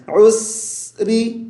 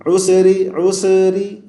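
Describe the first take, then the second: First: عسری with the س drawn out, slow; lengthened sin. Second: عسری with an echo added on the س; the wrong reading with an echo on س; bouncing sin. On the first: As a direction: stretch the س in عسری. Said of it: "سین کی آواز کو کھینچیں گے". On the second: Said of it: "یہ sound نہیں نکالیں گے". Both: Shown as a demonstration.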